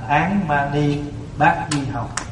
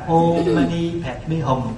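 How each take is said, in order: First: The mantra is said with Vietnamese-style syllables. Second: The mantra is said with Sanskrit-style syllables. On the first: "cho nên gọi là Án Mani Bát Di Hồng" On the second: "mình niệm nguyên âm tiếng Phạn"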